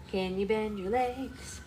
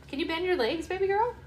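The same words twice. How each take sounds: First: Slow coaxing. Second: High-pitched coaxing. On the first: Mother asks the baby once more to bend, slow coaxing. Repeats request to baby slowly. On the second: Mother asks her baby girl to bend her legs, high baby talk. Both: Real, not acted.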